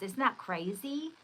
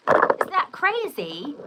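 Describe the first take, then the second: First: Said in the usual way. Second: Drawn-out, louder, higher; incredulous exclamation; emphatic. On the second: Shown as a demonstration. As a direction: stretch it out for the camera. Repeats question, emphatic second take.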